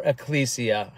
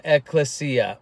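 First: Ecclesia as uh-KLEE-see-uh; ecclesia with LEE. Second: Ecclesia as ek-lih-SEE-uh. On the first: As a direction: stress the KLEE in ecclesia, soft s. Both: Shown as a demonstration. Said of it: "however you want to pronounce it".

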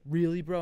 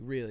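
First: "Really, bro?" raised and louder, as a challenge; incredulous question. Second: "Really." as a short, settled statement; firm retort. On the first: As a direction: push "Really" up in mock disbelief. Scammer's challenge, then teller's reply. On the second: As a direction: answer "Really" with finality, not as a question. Teller's firm retort to scammer. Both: Retold or imitated.

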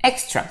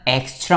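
First: "extra" with EX punched short and high; forceful first syllable. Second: "extra" with an ordinary, unforced opening e; unstressed first vowel. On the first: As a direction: hit the opening "ex" of "extra" sharply in a higher pitch. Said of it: "액을 강하게 힘줘서". ("extra"의 '엑'을 강하게 힘줘서) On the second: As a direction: say "extra" without punching the first syllable. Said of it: "그냥 extra 말고". ("extra"의 '엑'에 힘을 빼고) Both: Shown as a demonstration.

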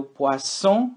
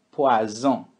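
First: Poisson with a hissed S; sharp S. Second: Poison with a voiced buzzing Z. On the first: Teacher drills the fish word poisson. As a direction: stress the S in poisson. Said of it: "caprichar no som do S". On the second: Teacher drills the poison word poison. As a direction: make the Z in poison buzz. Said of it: "no Z". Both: Shown as a demonstration.

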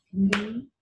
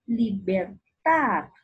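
First: "Libertad" as li, ber, tad with pauses; three separate beats for "Libertad"; syllable by syllable. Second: Said in the usual way. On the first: Shown as a demonstration. Teacher clapping out the word, "Libertad" syllable by syllable. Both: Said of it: "Utiliza las palmadas para separar".

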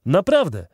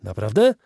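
First: "Naprawdę" said higher and louder with a firm falling tune; a touch of boastful certainty; proud confirmation. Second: Surprised question. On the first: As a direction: confirm it proudly, landing the word down. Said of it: "odpowiedział ten ostatni". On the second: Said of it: "zawołał Tom Hunter". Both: A narrator's reading.

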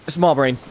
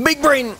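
First: Said in the usual way. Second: High, pleased with himself; big brain voice. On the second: Pretend. Mocking his own big brain moment, high and smug. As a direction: say it like a proud genius.

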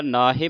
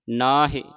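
First: ਨਾ ਹੀ ending in "he" for "hi"; wrong e ending. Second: ਨਾ ਹੀ with a short i on the h; short-i ending. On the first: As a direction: say ਨਾ ਹੀ as "naa-he". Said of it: "ਲਾਂ ਦੀ ਆਵਾਜ਼ ਉਚਾਰਨ". (ਨਾ ਹੀ ਨੂੰ ਲਾਂ ਨਾਲ "ਨਾਹੇ" ਬੋਲੋ) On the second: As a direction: sound the sihari: ਨਾ ਹੀ as "naa-hi". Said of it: "ਹਾਏ ਨੂੰ ਸਿਆਰੀ ਦੀ ਆਵਾਜ਼". (ਨਾ ਹੀ ਵਿੱਚ ਹਾਹੇ ਦੀ ਸਿਹਾਰੀ ਬੋਲੋ) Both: Shown as a demonstration.

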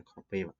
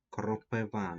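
First: "кропива" with the stress on the middle syllable, -ПИ-; kroPYva, stressing the middle of "кропива"; rejected word stress. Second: "кропива" with the stress on the final syllable, -ВА; kropyVA, stressing the end of "кропива"; correct word stress. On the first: Teacher shows pupils the mistaken stress, "кропива" stressed on -ПИ-. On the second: Teacher gives pupils the correct stress, "кропива" stressed on -ВА. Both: Shown as a demonstration. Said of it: "не кропива".

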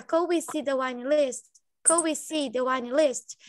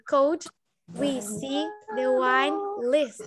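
First: Could we ligado, kowi; frase ligada, devagar; linked words. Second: Could e pausa, resto bem lento; separated slow. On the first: (tudo junto) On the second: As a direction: separado e arrastado. (separado devagar) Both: Shown as a demonstration. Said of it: "Juntando tudo fica".

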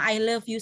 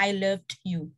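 First: Said in the usual way. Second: "loved" with an audible final d; past-tense ending. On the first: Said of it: "Karena ketika kamu bilang". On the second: Shown as a demonstration. Teacher showing love that is over, "loved" ending in a clear d. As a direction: put a d sound on the end of "loved". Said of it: "Ada dehnya di belakang".

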